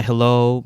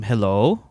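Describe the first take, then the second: First: Said in the usual way. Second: "hello" in Filipino-accented English. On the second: Shown as a demonstration. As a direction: switch into a Filipino-accented greeting. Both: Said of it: "went into full accent mode".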